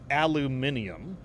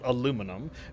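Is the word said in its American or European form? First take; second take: European; American. First: The word is said in its European form. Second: The word is said in its American form. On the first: "but in Europe, it's literally spelled aluminium" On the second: "in the United States, it is literally spelled aluminum"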